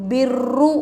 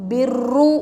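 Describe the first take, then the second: The two takes are said the same way.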